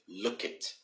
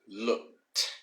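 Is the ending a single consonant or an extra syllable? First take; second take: extra syllable; single consonant. First: The word ends with an extra syllable. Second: The word ends in a single consonant. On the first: "most of my Brazilian students uh, normally have like a small problem with. They say look it" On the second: "to pronounce this one with an ed, we say looked"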